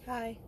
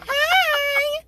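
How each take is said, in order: First: It is said flatly, without enthusiasm. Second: It is said with happy enthusiasm.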